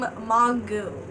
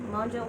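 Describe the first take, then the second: First: The name ends with a 'goo' sound. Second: The name ends with a 'zho' sound. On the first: The speaker calls it wrong. "I pronounce her last name Mongu" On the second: The speaker calls it right. "I think it's Mojo, right?"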